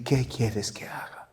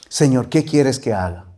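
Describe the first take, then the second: First: Soft, unvoiced surrender to God; whispered prayer. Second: Said in the usual way. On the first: Shown as a demonstration. Preacher showing the congregation what to pray, whispered. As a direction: whisper it as your own prayer.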